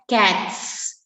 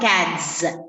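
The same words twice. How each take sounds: First: The word ends with a hissing s sound. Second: The word ends with a buzzing z sound. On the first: The speaker calls it right. "Sa sound" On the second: The speaker calls it wrong. "It's not cats"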